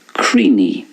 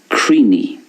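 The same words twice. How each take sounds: First: It is said in an Ulster Irish accent. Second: It is said in an Ulster Irish accent.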